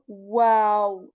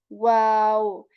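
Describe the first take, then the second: Both takes have the same delivery.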